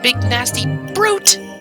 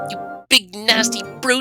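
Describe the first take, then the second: First: The word brute is said with strong stress. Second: The word brute is said without strong stress.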